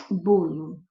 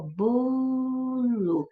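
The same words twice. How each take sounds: First: Said in the usual way. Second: "bolo" with "bo" held long and higher; stress on BO. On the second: Shown as a demonstration. Teacher showing students the tonic syllable, "bo" drawn out in "bolo". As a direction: stretch out the first syllable of "bolo", then a short "lo". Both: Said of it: "a sílaba tônica é bo".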